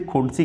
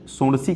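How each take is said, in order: First: The word begins with a 'kh' sound. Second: The word begins with an 's' sound. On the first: "कुछ लोग खा उच्चारण करते हैं" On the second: "कुछ लोग इसको सा उच्चारण करते हैं"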